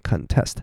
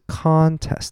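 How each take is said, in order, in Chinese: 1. 重音在第二个音节。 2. 重音在第一个音节。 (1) "它的重音就在后面这个test，所以念contest" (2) "它的重音会是在前面的那个音节，所以是contest"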